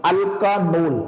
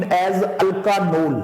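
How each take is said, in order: First: Said in the usual way. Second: Alkanol बहुत धीरे खींचकर; slow naming. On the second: Shown as a demonstration. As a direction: spell out alkanol slowly for the class. (alkanol धीरे-धीरे, शब्द को खींचकर) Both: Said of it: "alcohols are named".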